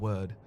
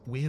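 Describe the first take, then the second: First: The word rhymes with 'bird'. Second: The word rhymes with 'beard'. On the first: "Is it weird or word?" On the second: "Is it weird or word?"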